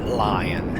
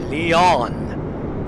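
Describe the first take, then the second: First: The name sounds like the English word lion. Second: The name is said the French way. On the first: "but I call it Lion" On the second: "That's how you pronounce it"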